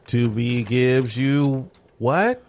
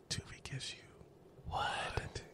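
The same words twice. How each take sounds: First: Slow, stretched ad callout; drawn-out announcement. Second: Slow sultry whisper; sexy voice. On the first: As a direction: stretch it like a teaser. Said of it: "'cause I was gonna shout it". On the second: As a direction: breathe it slowly like a seduction. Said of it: "we'll say it in the sexy voice". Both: Shown as a demonstration.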